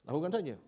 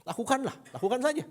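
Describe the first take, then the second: First: Said in the usual way. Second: High, loud push on lakukan saja; insistent command. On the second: Shown as a demonstration. Preacher urging husbands to just do it, insistent. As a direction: order it, no excuses. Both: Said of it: "Enggak, itu perintah".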